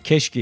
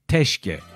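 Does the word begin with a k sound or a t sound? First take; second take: k sound; t sound. First: The word begins with a k sound. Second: The word begins with a t sound. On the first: "keşke yerine" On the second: "T cetvelinin T'siyle teşke diyen var"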